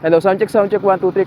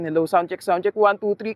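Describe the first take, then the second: First: Background noise is heard behind the voice. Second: Background noise is removed from behind the voice. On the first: "kapag hindi pa naka-turn on yung environmental noise cancellation" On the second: "naka-turn on na yung E N C natin"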